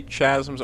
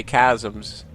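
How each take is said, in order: First: "Chasms" with CH as in chair; soft CH pronunciation. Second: "Chasms" said as KAZ-ums; hard K pronunciation. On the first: Telling viewers how some people say it, "Chasms" with a CH. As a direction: open "Chasms" with a CH, not a K. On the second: Telling viewers how other people say it, "Chasms" with a K. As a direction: open "Chasms" with a K, not a CH. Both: Shown as a demonstration. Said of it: "either they say Chasms or they say Chasms".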